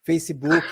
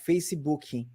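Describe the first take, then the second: First: The word ends cleanly on the final k sound. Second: An extra vowel sound is added after the final k.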